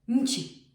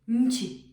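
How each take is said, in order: First: The middle consonant is short, sharp and hard. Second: The middle consonant is short, sharp and hard.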